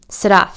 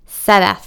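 First: The name is clipped and short. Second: The first vowel is long and drawn out. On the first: "brief staccato" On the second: "emphasizing the long A"

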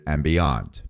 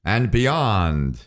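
First: It is said in his normal voice. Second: It is said in a Buzz Lightyear voice.

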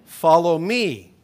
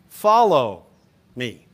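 First: The stress is on "me". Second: The stress is on "follow".

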